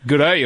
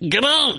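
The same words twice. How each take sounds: First: It is said with a lower pitch. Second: It is said with a much higher pitch. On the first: "an Australian will be like" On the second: "a New Zealander's like, ... They've gone way up"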